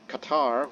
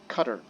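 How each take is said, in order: First: It uses the usual Western English pronunciation. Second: It uses a different, non-Western pronunciation. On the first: This is how Westerners say it. "which is what we Westerners pronounce it" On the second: This is how some other people say it. "I heard some people said Qatar"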